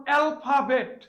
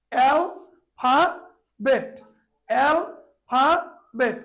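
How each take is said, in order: First: Said in the usual way. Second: alphabet said very slowly, split into three separate beats; alphabet drawn out as al-pha-bet, each syllable apart. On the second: Shown as a demonstration. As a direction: stretch alphabet out, one beat per syllable. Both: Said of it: "এই তিনবারে".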